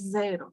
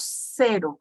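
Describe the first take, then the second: First: The first consonant is not a sharp double S. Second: The first consonant is a sharp double S. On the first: The speaker calls it wrong. "No decimos cero" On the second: The speaker calls it right. "decimos cero, como si fuese una doble S"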